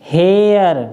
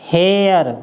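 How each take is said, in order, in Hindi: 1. स्वर air वाली ध्वनि की तरह सरकता है। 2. स्वर air वाली ध्वनि की तरह सरकता है।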